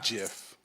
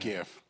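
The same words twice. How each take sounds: First: It begins with a soft j sound. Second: It begins with a hard g sound. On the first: Someone else says it this way. "he says GIF like Jiffy Pop or Jif the peanut butter" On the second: This is the speaker's own way of saying it. "No, I meant GIF"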